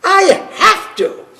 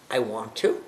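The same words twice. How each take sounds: First: I have to said high, louder and slow, pressed hard; stress on I have to. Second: I want to said low and soft, trailing away; low, soft take. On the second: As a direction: let I want to sink low and quiet. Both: Shown as a demonstration.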